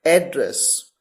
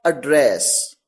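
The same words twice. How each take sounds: First: एड्रेस with the stress on the first syllable, AD-dress; एड्रेस said as a noun, first syllable stressed and open "e"; noun pronunciation of address. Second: एड्रेस with a weak "uh" start and the stress on the second syllable, uh-DRESS; एड्रेस said as a verb, first vowel reduced, second syllable stressed; verb pronunciation of address. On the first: Teacher showing students the noun form, stress on first syllable. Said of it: "जिसकी दो अलग-अलग pronunciation है".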